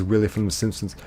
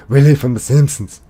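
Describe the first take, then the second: First: Said in the usual way. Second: Put-on loud, high, mad Scottish accent; Willie. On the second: Streamer echoing a viewer's Simpsons guess, shouted Scottish impression. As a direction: bellow it as an irate Scotsman. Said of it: "I did it better earlier".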